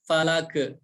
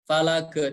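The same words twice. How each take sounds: No difference in how they are said.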